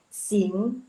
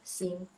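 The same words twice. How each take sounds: First: The final ng sound is clearly emphasized. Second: The final ng sound is weak and unstressed. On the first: The speaker calls it right. "yang kedua itu ada agak penekanan di N G" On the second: The speaker calls it wrong. "agak enggak ada penekanan di N G-nya, cuman baca aja sing"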